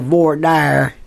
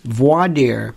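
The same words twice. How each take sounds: First: It is said with a Southern US pronunciation. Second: It is said in a standard pronunciation.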